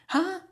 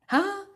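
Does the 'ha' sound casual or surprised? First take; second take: surprised; surprised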